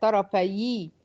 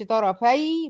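First: "طرفي" ending in yi, tarafayi; slow, careful "طرفي" with the extra i ending; kasra form. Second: "طرفي" ending in a still y, tarafay; slow, careful "طرفي" with no added i; unlinked form. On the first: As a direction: add a short i after the y of "طرفي". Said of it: "بقت طرفي". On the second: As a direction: close "طرفي" on a vowelless y. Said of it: "مبقتش طرفي". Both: Shown as a demonstration.

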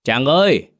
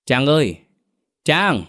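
First: Higher, firmer call to wake someone; raised voice calling a sleeper; louder call. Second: Father calling his daughter, higher-pitched; raised-pitch call of her name. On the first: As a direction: call out a little more insistently. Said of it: "với mức âm lượng to hơn đôi chút". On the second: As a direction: call toward a closed room. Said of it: "cất tiếng gọi con gái". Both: A narrator's reading.

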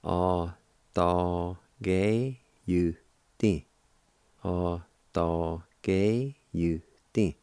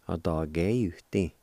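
First: Slow demo. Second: Said in the usual way. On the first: Shown as a demonstration. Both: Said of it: "you can pronounce it like this".

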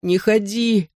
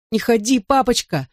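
First: Put-on high, squeezed-out childish plea; sobbing child. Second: Put-on crying-out child. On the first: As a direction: force out a tearful plea. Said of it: "выдавил из себя рыдающий тигр". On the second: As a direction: beg daddy in a raised child's pitch. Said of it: "закричал он". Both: A narrator's reading.

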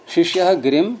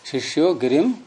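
First: शिष्यः ending in an aspirated "ha" before गिरिम; visarga kept. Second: शिष्यो ending in a long "o" before गिरिम; sandhi applied. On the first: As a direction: say शिष्यः with its final breath, "shishya-ha", unjoined to गिरिम. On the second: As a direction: say शिष्यो as "shishyo", with no final "ha". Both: Shown as a demonstration. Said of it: "यहाँ शिष्यो क्यों नहीं होगा".

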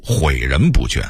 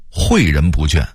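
First: 毁人不倦 with huǐ for huì; dipping tone on 毁 in 毁人不倦; Beijing-style 毁人不倦 without a falling first syllable; Beijing dialect reading. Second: Said in the usual way. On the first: Shown as a demonstration. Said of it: "北京话读". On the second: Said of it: "北京话读毁人不倦".

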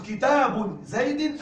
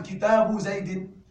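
First: كتاب زيد read slowly as kitaabun zaydin; slow model with tanwin. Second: كتاب زيد read slowly as kitaabu zaydi; slow model without tanwin. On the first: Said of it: "أقول". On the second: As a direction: say كتاب زيد with no nunation, ending in i. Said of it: "أم". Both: Shown as a demonstration.

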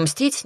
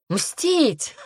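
First: Said in the usual way. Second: High, incredulous echo of мстить; scornful echo. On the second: A narrator's reading. Demoness scoffing at the heroine's promise, incredulous echo. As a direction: throw мстить back as a ridiculous idea. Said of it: "расхохоталась демоница".

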